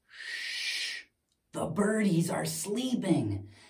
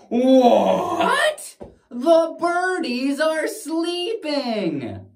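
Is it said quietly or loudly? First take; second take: quietly; loudly. First: It is said quietly, hushed. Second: It is said loudly.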